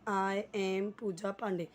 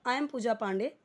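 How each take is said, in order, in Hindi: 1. 'I' और 'am' अलग-अलग शब्दों की तरह बोले जाते हैं। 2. 'I' और 'am' मिलकर एक सिलेबल में बोले जाते हैं। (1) "जैसे लिखा हुआ है लोग वैसे ही रट्टा मारते हैं" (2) "आई और एम को साथ में मिला देते हैं"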